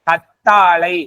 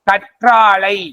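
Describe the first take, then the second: First: The middle consonant is pronounced as 'tt'. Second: The middle consonant is pronounced as 'ṯṟ'. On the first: This is how people say it locally. "கத்தாழை அப்படின்னு சொல்லுவாங்க" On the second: This is the formal written form. "கற்றாழை அப்படிங்கிறது என்னது?"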